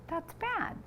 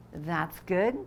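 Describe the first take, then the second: First: That's Bad said much higher and softer. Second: Said in the usual way. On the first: Shown as a demonstration. Reading the title, high soft Bad.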